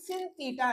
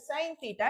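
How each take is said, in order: First: The first word rhymes with 'pin'. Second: The first word rhymes with 'pine'. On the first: The speaker calls it wrong. "సిన్ theta అనద్దండి" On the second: The speaker calls it right. "దాన్ని సైన్ theta అని pronounce చేయాలి"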